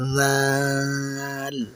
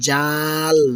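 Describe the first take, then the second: First: The word starts with a soft, airy sound. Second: The word starts with a hard 'j' sound. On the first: The speaker calls it right. "খুব নরম করে বাতাস ছাড়ার মতো করে বলবেন" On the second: The speaker calls it wrong. "এটি কিন্তু ঝাল বা জাল নয়"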